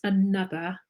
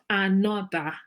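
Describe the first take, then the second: First: It starts with a weak schwa vowel. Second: It starts with a full, strong vowel. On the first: The speaker calls it right. "It's at the beginning and it's at the end of another" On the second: The speaker calls it wrong. "So it's not another"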